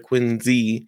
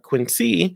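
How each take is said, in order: First: The middle consonant sounds like z. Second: The middle consonant sounds like s. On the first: The speaker calls it right. "but rather Quincy, Z-E" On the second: The speaker calls it wrong. "the way most Americans would pronounce it"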